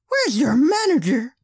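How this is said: It is said in an exaggerated put-on voice. The speaker calls it right.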